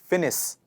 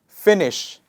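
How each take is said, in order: First: The word ends with a plain s sound. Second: The word ends with an sh sound. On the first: The speaker calls it wrong. "most of the times misunderstood as finis" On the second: The speaker calls it right. "is finish"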